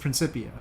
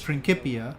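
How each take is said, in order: First: The c is a soft sound. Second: The c is a hard k sound. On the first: This is the modern Latin pronunciation. "modern Latin has the soft C... the modern way they say it is Principia" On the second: This is the classical Latin pronunciation. "ancient Latin has a hard C. So ancient Latin is Principia"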